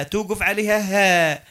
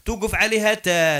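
First: Slow, stretched "هاء" with an H; teacher's H-ending demo on "هاء"; stop on an H sound. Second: "تاء" pronounced with a clear T; teacher's T-ending demo on "تاء"; stop on a T sound. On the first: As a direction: land the stop on "هاء" as H, not T. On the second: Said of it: "الهاء هذيك التاء المربوطة". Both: Shown as a demonstration.

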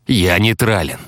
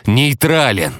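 First: «нейтрален» stated a little raised, falling at the end; firm declaration. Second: НЕЙТРАЛЕН pitched high, then falling; insistent repeat. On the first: Hunter declaring himself neutral, «нейтрален» firm and contained. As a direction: state «нейтрален» firmly, with restraint. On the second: Hunter insisting on neutrality, «нейтрален» high and emphatic. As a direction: hit «нейтрален» higher and harder. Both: A narrator's reading.

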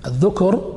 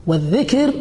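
First: الذكر as "adh-dhukr", u after ذ; damma on the dhal. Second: والذكر as "wadh-dhikr", i after ذ; kasra on the dhal. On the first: Teacher contrasting remembering with speech, الذكر as "dhukr". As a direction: put a short u in الذكر after the ذ. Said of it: "لأن الذكر بالضم". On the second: Teacher naming the opposite of silence, والذكر as "dhikr". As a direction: put a short i in والذكر after the ذ. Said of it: "فبضم الذال وكسرها". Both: Shown as a demonstration.

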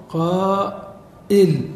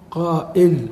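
First: قائل stretched very slowly, syllable by syllable; slow drawn-out demo. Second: Said in the usual way. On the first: Shown as a demonstration. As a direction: draw out قائل slowly for the class. (نطق قائل ببطء شديد وتمديد) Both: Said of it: "فإن العرب تقول".

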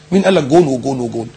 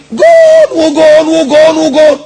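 First: Said in the usual way. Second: High, loud, long-held goal cries; screaming goal call. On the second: Acted. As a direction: imitate a commentator screaming each goal. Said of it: "ويزعق ويصرخ". (صراخ معلق عند الهدف)

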